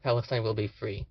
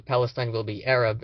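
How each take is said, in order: First: Said in the usual way. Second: "Arab" landed firmly with a falling close; stress on Arab. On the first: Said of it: "instead of". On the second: Shown as a demonstration. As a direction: lean on "Arab" to set it against "free". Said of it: "which actually translates to".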